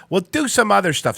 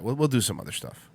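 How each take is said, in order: First: Higher, back at full volume; raised restart. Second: Low, quiet, half to himself; subdued aside. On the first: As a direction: pick it up higher for the audience. Same words repeated, brought back up. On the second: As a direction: say it softly and low. Muttered first take, then repeated up. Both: Real, not acted.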